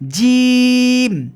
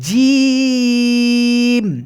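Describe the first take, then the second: First: The word is said at its usual short length. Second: The word is stretched out and held long. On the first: "বা নর্মাল আমরা বলতে" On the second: "তো আমরা একটু টেনে পড়বো।"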